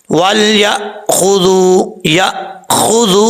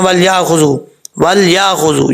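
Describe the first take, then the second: First: Slow वल या खुजू with a crisp catch, no echo; clean glottal stop. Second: वल या खुजू with a bounced echo on the hamza; bouncing hamza. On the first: Shown as a demonstration. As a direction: stop the hamza sharply in खुजू. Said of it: "झटका ... कैसे दिया जाता है?". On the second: Retold or imitated. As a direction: mimic the wrong qalqala in खुजू. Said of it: "ये कलकला हो रहा है".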